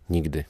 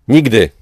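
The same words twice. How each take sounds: First: A soft, low whisper of refusal; a quiet, defeated-sounding whisper of defiance. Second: A loud, trembling cry catching in her throat; a defiant scream, the voice cracking with fear; shaky cry. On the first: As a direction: breathe the word, barely audible. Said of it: "szepnęła". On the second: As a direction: cry out, voice shaking and choked. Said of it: "Krzyknęła roztrzęsionym, więźnącym w krtani głosem". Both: Acted.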